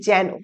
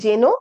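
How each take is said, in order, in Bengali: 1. স্বরধ্বনিটি খোলা 'ae' ধ্বনি। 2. স্বরধ্বনিটি একটু বদ্ধ 'e' ধ্বনি।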